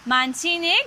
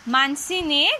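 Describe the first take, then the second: The two takes are said the same way.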